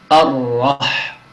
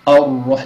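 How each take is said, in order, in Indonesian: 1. Ra diucapkan tanpa memonyongkan bibir. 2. Ra diucapkan dengan bibir memonyong dan membulat.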